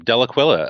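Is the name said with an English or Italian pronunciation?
English. The name is said with an English pronunciation. The speaker calls it wrong. "I'm mispronouncing it"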